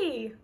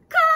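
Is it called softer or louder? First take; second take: softer; louder. First: The name is called at normal volume. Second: The name is called more loudly.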